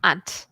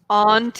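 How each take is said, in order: First: The word is said in a non-British accent. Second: The word is said in a British accent. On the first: "I say aunt, the same as you" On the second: "you can say it aunt if you want to be British"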